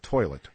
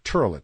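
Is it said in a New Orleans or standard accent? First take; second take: standard; New Orleans. First: It is said in a standard accent. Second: It is said in a New Orleans accent.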